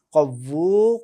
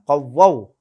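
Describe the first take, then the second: First: "কవ్বু" ending in a long u. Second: "কవ్বাও" ending in a wao glide. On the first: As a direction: say "কవ్বু" loudly with a closing oo. Slip, corrected right after. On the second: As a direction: say "কవ్বাও" loudly, opening into ao. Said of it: "এখানে হবে কవ్বাও". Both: Shown as a demonstration.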